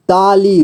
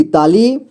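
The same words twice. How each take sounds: First: ताली as ता-ली, falling at the end; syllable by syllable. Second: Said in the usual way. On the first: Shown as a demonstration. Teacher showing beginners how to read ताली, syllable by syllable. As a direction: give each half of ताली its own beat. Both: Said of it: "जोड़ जोड़ करके ही पढ़ना होगा".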